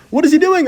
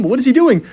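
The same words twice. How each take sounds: First: Much higher and louder, peaking in shock; near-shouted disbelief. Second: Higher and louder, stunned; loud disbelief. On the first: Streamer repeats his question at the opponent's blunder, near-shouted disbelief. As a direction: let the question fly up in total amazement. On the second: Streamer reacting to the opponent doing nothing, loud disbelief. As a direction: ask it in real amazement. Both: Real, not acted.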